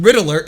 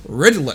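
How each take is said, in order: First: "Riddler" with an extra syllable, RID-uh-ler; wrong Riddler. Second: Said in the usual way. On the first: Retold or imitated. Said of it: "No, it's not Riddler". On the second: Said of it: "it's Riddler".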